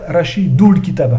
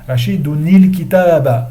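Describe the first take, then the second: First: The nun is dropped and runs into 'l'. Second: The nun takes an 'i' vowel before 'l'. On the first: The speaker calls it wrong. "il ne faut pas dire" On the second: The speaker calls it right. "Il faut dire Rashidouni"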